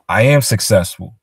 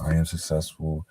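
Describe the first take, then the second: First: It is said with firm, confident conviction. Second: It is said doubtfully, without any conviction. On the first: The speaker believes the statement. The speaker calls it right. "You're saying it with conviction, saying it as if you believe it" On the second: The speaker does not believe the statement. The speaker calls it wrong. "like you really don't believe it"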